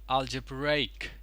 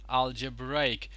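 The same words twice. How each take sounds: The two takes are said the same way.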